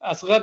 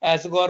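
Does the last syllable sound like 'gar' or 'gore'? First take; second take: gar; gore. First: The last syllable sounds like 'gar'. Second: The last syllable sounds like 'gore'. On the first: This is the name's actual form. "असगर नाम था" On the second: This is how people there said it. "असगौर वो pronounce करते थे वहाँ"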